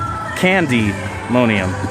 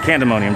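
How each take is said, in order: First: The second syllable is a long 'dee' sound. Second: The second syllable is a short 'duh' sound. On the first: "Emphasis on the Y there, candy" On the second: "I've been saying candemonium, just pandemonium"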